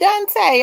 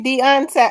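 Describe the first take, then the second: First: The name is said with two syllables. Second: The name is said with three syllables. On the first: The speaker calls it wrong. "I don't know why I say Dante" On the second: The speaker calls it right. "It sure is Deontay"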